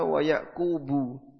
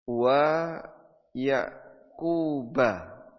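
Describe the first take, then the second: First: The name ends with a 'u' vowel. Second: The name ends with an 'a' vowel. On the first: Jacob also gave the same instruction to his sons. "dibaca dhamma" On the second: Jacob received the instruction from Abraham. "Kalau dibaca fathah"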